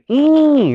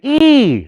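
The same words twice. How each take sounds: First: The vowel is nasalized, with the nose vibrating. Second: The vowel is plain, with no nasal sound. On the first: The speaker calls it right. "There's a nasal sound on there" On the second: The speaker calls it wrong. "We don't say e"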